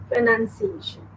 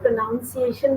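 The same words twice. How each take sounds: First: Pronunciation said as "pro-NUN-ciation"; pronunciation with a short U in the second syllable; correct pronunciation. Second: Pronunciation said as "pro-NOUN-ciation"; pronunciation with an OW sound in the second syllable; common mispronunciation. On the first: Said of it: "No, it is pronunciation". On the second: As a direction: say pronunciation wrongly with "noun" inside. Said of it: "इसको कई लोग pronunciation भी बोलते हैं". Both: Shown as a demonstration.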